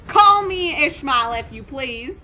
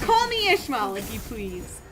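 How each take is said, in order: First: It is spoken with a Southern American accent. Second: It is spoken with a general American accent. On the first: The speaker calls it wrong. "probably has like a southern accent" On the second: The speaker calls it right. "I could just voice her with my normal voice"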